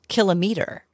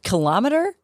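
First: The word is said as kilo plus meter. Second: The word is not said as kilo plus meter. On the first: The speaker calls it right. "is actually pronounced kilometer ... because you say meter, you say kilometer" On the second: The speaker calls it wrong. "The word kilometer"

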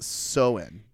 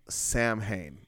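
First: It is said as 'sow-in', without m. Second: It is said with the spelled m and h. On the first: The speaker calls it right. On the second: The speaker calls it wrong.

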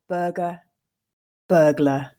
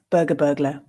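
First: The words are said slowly and carefully. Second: The words are said at a natural speed. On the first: "I'll read them once slowly for you to grasp the meaning" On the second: "Or if we read that at a more natural pace"

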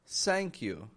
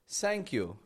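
First: The first sound is close to s. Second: The first sound is close to s.

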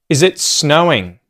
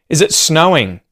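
Both takes have the same delivery.

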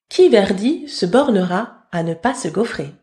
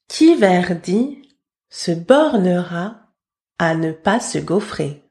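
First: It is said at normal speed. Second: It is said slowly.

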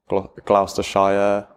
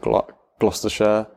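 First: The ending shire is said fully, like the word. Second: The ending shire is reduced and unstressed. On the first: An outsider read it from the spelling. The speaker calls it wrong. "Even the Shire, so like Gloucestershire" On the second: A local from the county said it. The speaker calls it right. "whereas I normally pronounce it Gloucestershire"

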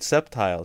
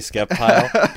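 First: The c is silent, starting with an s. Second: The c is sounded as a k. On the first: The speaker calls it right. "the sea is silent. I'm like, all right, Sceptile, sorry" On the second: The speaker calls it wrong. "if you say Sceptile, people freak out"

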